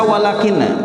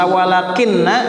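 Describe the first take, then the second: First: The n sound is single and short. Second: The n sound is doubled and held long. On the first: "tidak pakai tasdid" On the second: "pakai tasdid"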